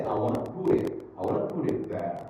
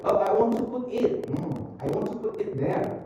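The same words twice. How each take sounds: First: Easy "wanna", "put it" as "puddit"; linked flapped T. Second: High-pitched, hard Ts in "want to put it"; mock over-crisp T. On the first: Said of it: "You can say". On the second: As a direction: show the wrong way, every T in "want to put it" sounded. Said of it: "Don't, don't say that". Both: Shown as a demonstration.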